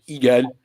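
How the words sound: The name is said with a French accent. "you go to France and they're like Hegel"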